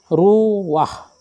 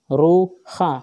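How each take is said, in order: First: The a vowel comes before the h sound. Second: The a vowel comes after the h sound. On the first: The speaker calls it right. "Maka dibaca adalah ruah" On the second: The speaker calls it wrong. "bukan ruha"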